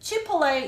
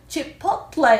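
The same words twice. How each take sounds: First: The t sound is not clearly pronounced. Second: A light t sound is pronounced. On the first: "Chipotle 이렇게 발음하는 사람도 있고" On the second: "약간 t를 살짝 넣어서 발음하는"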